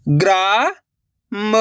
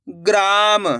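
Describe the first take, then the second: First: "ग्राम" split slowly as graa, long pause, ma; sounded out by letters. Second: Said in the usual way. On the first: Shown as a demonstration. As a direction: break "ग्राम" in two, the first part rising. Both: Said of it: "अक्षर का उच्चारण करके".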